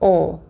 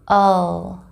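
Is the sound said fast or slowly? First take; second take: fast; slowly. First: The dark L sound is said faster. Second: The dark L sound is said slowly. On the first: "a little faster, we say the dark L like this" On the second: "Slowly, it sounds like this"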